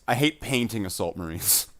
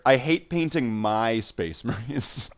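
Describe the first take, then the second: First: "painting" set apart as the correction; stress on painting. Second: Slow, with weight on "my"; stress on my. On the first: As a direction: lean on "painting" to narrow the complaint. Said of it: "no, I know, I love Assault Marines". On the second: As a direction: draw the line out, stressing "my" to specify. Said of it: "I'll specify further". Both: Real, not acted.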